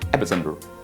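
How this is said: It is said with a General American accent. "In G A English, that is general American pronunciation"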